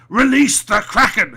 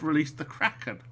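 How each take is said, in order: First: It is said loudly and dramatically. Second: It is said plainly without drama. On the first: This is how people remember the line. The speaker calls it wrong. "everyone seems to think he he said" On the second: This is how the line was really delivered. The speaker calls it right. "He just said"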